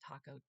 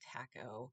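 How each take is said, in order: First: Said in the speaker's own usual pronunciation. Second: Said the way British people pronounce it.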